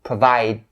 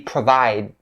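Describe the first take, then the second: The two takes are said the same way.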